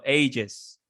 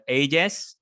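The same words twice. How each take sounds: First: "ages" said as "ay-juhz"; second pronunciation variant. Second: "ages" said slowly as "ay-jess"; first pronunciation variant. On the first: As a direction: soften the last vowel of "ages" to "uh". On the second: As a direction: give "ages" a clear e at the end. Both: Shown as a demonstration. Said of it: "You can say".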